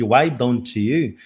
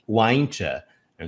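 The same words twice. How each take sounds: First: "why don't you" slow, three separate words; careful full form. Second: "Why don't you" drawn out as a blended "why-ncha"; fuse "don't you" into "ncha", slowly; connected speech. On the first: Teacher citing the written form before reducing it, carefully separated. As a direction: keep "don't you" whole and unblended. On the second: Teacher showing what it turns into, blended. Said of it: "vai se tornar". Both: Shown as a demonstration.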